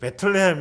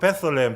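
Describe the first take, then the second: First: The name follows the Hebrew pronunciation. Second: The name follows the English pronunciation. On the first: "이스라엘 사람들이 그 베틀레헴 이렇게 발음하더라고요" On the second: "영어로는"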